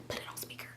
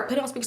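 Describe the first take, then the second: First: Unvoiced urgent whisper of "Put it on speaker". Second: Said in the usual way. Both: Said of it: "I'm telling her".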